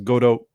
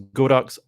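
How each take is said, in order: First: The name ends on a vowel, without 'ks'. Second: The name ends with a 'ks' sound. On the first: This is how the speaker always assumed it was said. "I always thought it was Godo" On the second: This is how most people say it. "Like everyone goes Godox"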